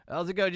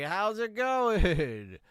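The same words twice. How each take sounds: First: Quick, laughing How's it going; laughing redo. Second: Slow, stretched-out How's it going; drawn-out greeting. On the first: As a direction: break up laughing on the retake. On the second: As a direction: draw out the word going. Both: Pretend.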